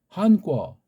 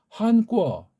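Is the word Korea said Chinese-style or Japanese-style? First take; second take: Chinese-style; Chinese-style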